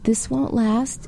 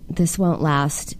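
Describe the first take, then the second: First: It sounds warm, kind and soothing. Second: It sounds exasperated, cold and flat. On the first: The speaker calls it right. "You'd probably say it more like this" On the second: The speaker calls it wrong. "Is an exasperated, cold, flat tone"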